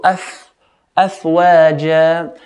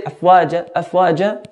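First: أفواجا with a long, breathed-out f; airy fa. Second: أفواجا quickly, with a short f; airless fa, wrongly. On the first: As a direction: let air stream through the f, then stretch waja. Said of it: "we want the air to flow with it". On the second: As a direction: cut the f of أفواجا short, no airflow. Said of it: "very little to no air will flow". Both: Shown as a demonstration.

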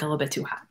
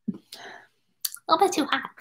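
First: Said in the usual way. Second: "A little bit too hot" repeated much higher, slow and soft; silly high repeat. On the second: Pretend. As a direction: squeak it out slowly like a cartoon.

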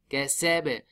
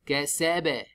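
No difference in how they are said.

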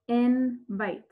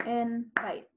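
First: "Invite" sounded out in two clear parts; syllable demo. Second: "Invite" clapped out in two beats, softer; syllable demo. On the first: Teacher clapping out syllables for the class. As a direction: clap out "Invite" in two beats. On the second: Teacher repeating the word for the class. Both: Shown as a demonstration. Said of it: "So we would clap it".

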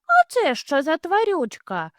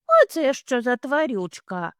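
First: Put-on high, wondering child bunny; curious bunny. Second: Put-on higher, wondering child bunny; a little one asking what that is; curious bunny. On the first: Little hare asks about the creature, high and curious. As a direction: ask like an amazed little one. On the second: Little hare asks about a creature, curious and higher.

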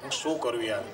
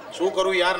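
First: Said in the usual way. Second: Exasperated. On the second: Retold or imitated.

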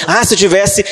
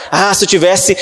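The two takes are said the same way.

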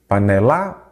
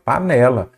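First: "Panela" stressed on final LA, rising; stress on last syllable. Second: "Panela" stressed on middle NE, falling; stress on penultimate syllable. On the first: Teacher testing where the stress falls, "Panela" with stressed LA. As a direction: say "Panela" as pa-ne-LÁ, questioning. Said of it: "Qual que é a sílaba tônica?". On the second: Teacher confirming the answer to students, "Panela" with stressed NE. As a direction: say "Panela" as pa-NE-la, decisively. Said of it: "Então, é a penúltima". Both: Shown as a demonstration.

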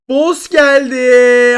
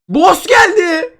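First: Slow, stretched, loud words; drawn-out repeat. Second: High, slow, loud call; shouted announcement. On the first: Gamer repeating it for viewers, slowly stretched. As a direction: drag each syllable out. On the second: Gamer shouting to viewers that the boss came, long loud call. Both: Real, not acted.

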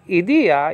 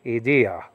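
First: "idea" with the middle syllable pitched up high; raised accent. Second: "idea" kept low, accent let down; dropped accent. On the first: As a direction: lift the DE of "idea", then fall. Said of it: "then you drop your accent". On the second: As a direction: drop the pitch of "idea" instead of lifting it. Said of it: "you say". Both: Shown as a demonstration.

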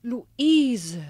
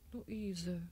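First: Louder exclamation of the name; surprised outcry. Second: Much softer, hushed repetition; stunned murmur. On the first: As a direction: call the name out in shock. Mother discovers daughter's identity. (überraschter Ausruf) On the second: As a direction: say the name again almost inaudibly. Mother repeats name, overwhelmed. (fassungslos gehaucht) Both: Acted.

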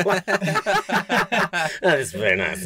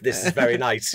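First: Slow, hammed-up Italian accent, laughing through it; mock Italian accent. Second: Said in the usual way. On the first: Podcast host teasing the racer's understatement, in a hammed-up Italian accent. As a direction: drawl "That is very nice" in a bad mock Italian accent. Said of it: "That was my Italian accent". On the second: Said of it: "I'd be using a lot more expletives than just".

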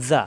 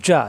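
First: জা as a soft, lisped "za"; light, continuous z at the teeth in জা; soft zal. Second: জা as a firm "ja", mid-tongue on palate; strong j stop in জা; hard jim. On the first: Teacher contrasting zal with jim, soft zal. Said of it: "নরম". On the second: Teacher contrasting jim with zal, hard jim. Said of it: "জিম শক্ত". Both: Shown as a demonstration.

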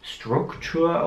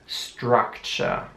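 First: "Struktur" with an OO vowel in both syllables, starting s-t; wrong German-style U. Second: "Structure" slowly, first vowel an open A. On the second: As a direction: say "Structure" as "strak-cher". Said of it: "das U wird wie ein A". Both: Shown as a demonstration.

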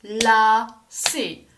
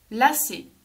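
First: "Lacé" in two separate loud beats; "Lacé" broken slowly into la, then cé; split into syllables. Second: Said in the usual way. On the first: Shown as a demonstration. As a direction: clap out "Lacé" with a gap between la and cé. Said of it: "On tape dans les mains".

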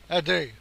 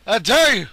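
First: Said in the usual way. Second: Loud, punched challenge; shouted dare. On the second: Real, not acted. Gamer daring his opponent to shoot, shouted challenge. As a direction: throw down the dare loudly.

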